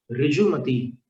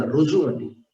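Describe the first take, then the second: First: ऋजुमती as 'rijumati', with i; i after the r in ऋजुमती; i pronunciation. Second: ऋजुमती as 'rujumati', with u; u after the r in ऋजुमती; u pronunciation. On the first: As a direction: say ऋजुमती starting 'ri'. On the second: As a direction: say ऋजुमती starting 'ru'. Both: Shown as a demonstration. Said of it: "रु, रु बोलना".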